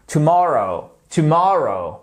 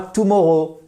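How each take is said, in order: First: "tomorrow" with the second syllable punched, falling after it; stress on second syllable. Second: "tomorrow" as the mistake to avoid, stress misplaced; wrong pronunciation demo. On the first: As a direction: model "tomorrow" clearly, weight on the middle syllable. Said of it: "ce fameux accent tonique ici". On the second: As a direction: say "tomorrow" the mistaken French-learner way. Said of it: "Et pas tomorrow, non". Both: Shown as a demonstration.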